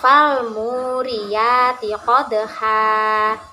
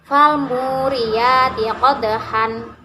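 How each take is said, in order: First: The last word ends in a lengthened a vowel. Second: The last word ends with an n sound.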